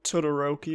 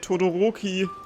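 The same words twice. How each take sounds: First: Said with an English-style pronunciation. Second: Said with a German-style pronunciation. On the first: This is how the English dub says it. "It's not Todoroki" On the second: This is how the German dub says it. "Or as the German dub would say"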